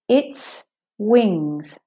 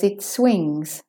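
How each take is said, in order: First: There is a slight pause between the words. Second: The words run together without a pause. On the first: It refers to a bird's wings. "And with the juncture, its wings. Its wings with the pause" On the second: Something is swinging. "When the wind blows"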